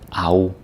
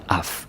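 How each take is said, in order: First: The syllable ends in a gliding ow vowel. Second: The syllable ends with a clear f sound. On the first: The speaker calls it right. "It becomes au" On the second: The speaker calls it wrong. "It's not af. don't don't say af"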